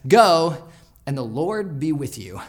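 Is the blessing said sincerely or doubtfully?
doubtfully. It is said doubtfully, as if he'll need luck.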